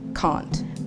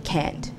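First: It is said with a British-sounding vowel. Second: It is said with an American-sounding vowel. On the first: Older generations say it this way. "our grandparents use a more British twang" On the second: Younger generations say it this way. "the young people today use a more American sounding dialect"

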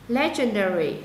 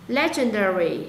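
No difference in how they are said.

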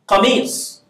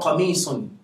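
First: The word ends on a consonant, no final vowel. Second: The word ends with a final -un syllable. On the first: "I can just say kamis" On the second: "Or kamisun"

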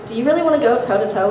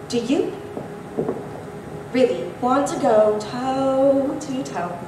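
First: It is said with an ordinary, even rhythm. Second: It is said with an odd, unsettling rhythm. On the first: "I'm gonna say it with my normal voice" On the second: "then I'll like mess it up"

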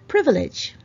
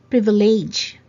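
First: The word is said in the standard way. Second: The word is said in a nonstandard way. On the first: The speaker calls it right. "It's privilege" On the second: The speaker calls it wrong. "It's not privilege"

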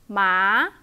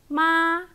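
First: The pitch rises from low to high. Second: The pitch stays high and level. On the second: "high flat"

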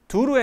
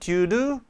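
First: The t in 'to' is a soft d-like flap. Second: The t in 'to' is a clear t. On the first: "TDR 법칙에서 due to 두로 했네요" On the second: "due to 하지 않고"

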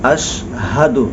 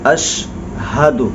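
The two takes are said the same way.

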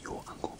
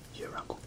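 First: The word 'your' is said in full. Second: The word 'your' is reduced to 'yer'. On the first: "Or Bob's your uncle" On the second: "but we say your uncle"

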